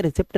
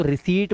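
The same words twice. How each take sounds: First: रिसिप्ट as "ri-sipt", short vowel and p; wrong p-sounded reading. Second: रिसीट as "ri-seet", with long "ee"; silent-p reading. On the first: Teacher showing what not to say, रिसिप्ट with "pt". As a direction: sound the p before t in रिसिप्ट, voice lowered. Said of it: "रिसिप्ट नहीं बोलते". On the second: Teacher telling learners the spoken form, रिसीट with no p. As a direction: leave the p out of रिसीट. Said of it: "इसको रिसीट बोलते हैं". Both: Shown as a demonstration.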